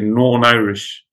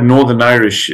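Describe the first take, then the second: First: The 'th' sound is dropped, giving 'Norn'. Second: The 'th' sound in 'Northern' is fully pronounced. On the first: "if you're Northern Irish, you would say Norn Irish. So you don't even really pronounce the TH" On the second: "the word Northern Irish"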